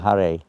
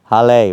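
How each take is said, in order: First: The word starts with an R sound. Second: The word starts with an L sound. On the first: The speaker can pronounce R. The speaker calls it right. "rather than a hare" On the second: The speaker cannot pronounce R. The speaker calls it wrong. "Chinese people have a hard time with the R"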